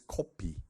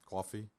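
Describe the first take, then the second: First: It is said with Korean pronunciation. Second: It is said with English pronunciation. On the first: "Coffee is not coffee in Korea. It's kopi" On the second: "this is coffee"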